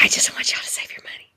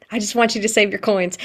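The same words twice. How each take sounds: First: Unvoiced conspiratorial whisper; hushed confiding whisper. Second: Said in the usual way. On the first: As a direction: lean in and whisper the secret. Confiding aside to class. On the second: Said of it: "plain restatement".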